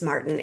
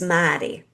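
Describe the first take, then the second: First: The name is said in a standard accent. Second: The name is said in a Boston accent. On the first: "your name is Martin" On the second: "when you're from Boston and your name is Martin, it's Maddie"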